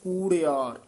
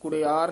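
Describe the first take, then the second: First: The first vowel is long. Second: The first vowel is short. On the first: The speaker calls it right. "ਦੀਰਘ ਲਾ ਕੇ ਉਚਾਰਨ ਕਰਨਾ ਹੈ" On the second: The speaker calls it wrong. "ਕੁੜਿਆਰ ਨਹੀਂ ਕਹਿਣਾ"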